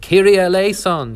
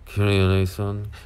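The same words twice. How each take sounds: First: It is said in an eager, excited tone. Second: It is said in a subdued, somber tone. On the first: It is an eager plea for mercy. The speaker calls it right. "because we, we were excited" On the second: It is a routine church response. The speaker calls it wrong. "with the same kind of somber tone that one expects"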